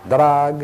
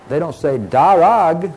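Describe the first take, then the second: First: No vowel is heard between d and r. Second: A full vowel is heard between d and r. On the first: The speaker calls it right. "they say drag" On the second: The speaker calls it wrong. "They don't say darag"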